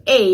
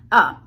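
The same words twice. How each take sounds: First: "a" said in full as "ay"; full vowel in "a"; strong form a. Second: "a" reduced to a short schwa; weak form a. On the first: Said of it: "Instead of a". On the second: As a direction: swallow "a" to "uh". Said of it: "you will hear most of the time". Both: Shown as a demonstration.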